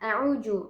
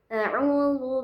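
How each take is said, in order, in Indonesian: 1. Konsonan tengah itu terdengar seperti j. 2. Konsonan tengah itu tipis dan ringan. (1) "ada yang mengubahnya ke huruf jim" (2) "yang paling tepat itu zal, dia tipis"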